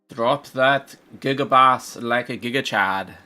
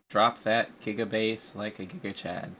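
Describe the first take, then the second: First: It is said in a put-on German accent. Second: It is said in a plain, ordinary voice. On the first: The speaker calls it right. "I almost want to say like a German accent" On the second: The speaker calls it wrong. "You weren't in character for that"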